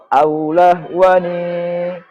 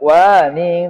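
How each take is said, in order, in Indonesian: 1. Akhirannya n biasa dengan vokal. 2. Akhirannya bunyi sengau ng. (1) "Kalau wasol aulah wani" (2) "Tidak waning, tidak"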